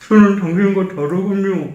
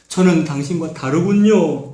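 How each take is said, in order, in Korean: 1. 입술을 가려서 목소리가 웅얼거려요. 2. 목소리가 선명하고 막힘이 없어요.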